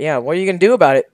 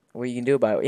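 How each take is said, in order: First: Fast, taunting dare; cocky, louder challenge to viewers. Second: Said in the usual way. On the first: Shown as a demonstration. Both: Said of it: "asking what the viewers are gonna do about it".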